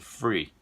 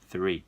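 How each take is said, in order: First: The word starts with an F sound. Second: The word starts with a TH sound. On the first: The speaker calls it wrong. "ou às vezes sai grátis" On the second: The speaker calls it right. "E não é nenhum desses, e sim three"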